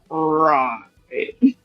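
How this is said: It is said imitating Doctor Evil's voice.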